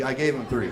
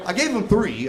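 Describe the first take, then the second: First: Said in the usual way. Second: Emphatic. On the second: Real, not acted.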